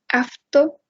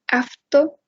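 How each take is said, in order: First: The consonant before the t is an f. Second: The same.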